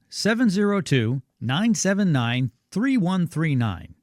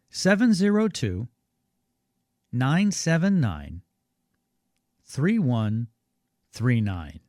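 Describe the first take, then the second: First: The number is read at normal speed. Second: The number is read more slowly.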